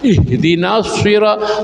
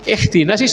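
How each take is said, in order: First: The consonant is a heavy, emphatic s sound. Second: The consonant is a plain, light s sound. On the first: The speaker calls it right. "antara sin dan shad" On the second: The speaker calls it wrong.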